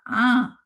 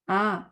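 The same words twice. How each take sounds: First: The vowel is pushed through the nose. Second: The vowel comes out without nasal sound. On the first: The speaker calls it wrong. "ये मैंने नाक से पढ़ा" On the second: The speaker calls it right. "ये मैंने सही पढ़ा"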